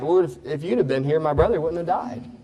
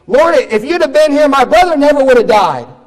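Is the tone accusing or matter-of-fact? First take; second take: matter-of-fact; accusing. First: It is said as a plain statement. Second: It is said in an accusing tone.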